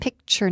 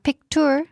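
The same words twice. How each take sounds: First: The middle consonant sounds like 'ch'. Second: The middle consonant is a plain 't'. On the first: The speaker calls it right. "It sounds like C H" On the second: The speaker calls it wrong. "not picture"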